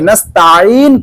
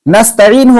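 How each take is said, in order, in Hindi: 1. "t" के बाद वाला स्वर लंबा है। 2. "t" के बाद वाला स्वर छोटा है। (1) "ता को अगर लंबा कर दिया" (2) "नस्तईन होना चाहिए था"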